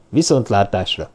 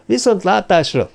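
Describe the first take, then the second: First: A lower, measured goodbye; low-pitched farewell. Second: A much higher goodbye in answer; high-pitched reply. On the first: Stanford takes leave of Watson, low-pitched farewell. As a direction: say goodbye low, letting it fall. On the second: Watson answers Stanford's farewell, high-pitched reply. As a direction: return the farewell high, then falling. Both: A narrator's reading.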